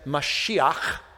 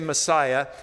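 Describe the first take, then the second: First: It is said the Hebrew way, ending in a throaty 'ch'. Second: It is said the English way, ending in 'ah'. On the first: This is how Hebrew speakers say it. "They said Mashiach" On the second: This is how English speakers say it. "They didn't say Messiah"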